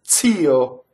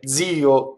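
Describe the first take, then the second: First: The word begins with a voiceless ts sound. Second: The word begins with a voiced dz sound. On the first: This is the traditional correct form. The speaker calls it right. "The proper one is T Z" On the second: This is how most people say it now. The speaker calls it wrong. "they say D Z when it's supposed to be T Z"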